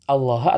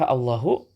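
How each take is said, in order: First: The word ends in a short a vowel. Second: The word ends in a short u vowel. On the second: "dengan dhammah"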